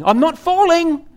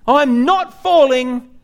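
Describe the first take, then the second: First: Higher-pitched mock yell of a man falling; hammed-up denial cry, pitched up high; mock scream. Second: Higher, drawn-out mock yell, very slow; slow mock scream. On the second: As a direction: stretch the denial out as he falls. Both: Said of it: "he's screaming".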